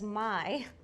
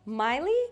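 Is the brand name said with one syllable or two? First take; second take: one; two. First: The name is said with one syllable. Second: The name is said with two syllables. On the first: The speaker calls it right. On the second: The speaker calls it wrong.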